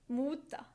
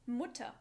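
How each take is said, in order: The two takes are said the same way.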